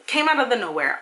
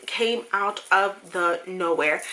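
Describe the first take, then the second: First: Said in the usual way. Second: "Came out of the nowhere" slow and spaced out, word by word; "Came out of the nowhere" drawn out deliberately for emphasis; slow emphatic repeat. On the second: Real, not acted. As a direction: drive home each word of "Came out of the nowhere", slowly.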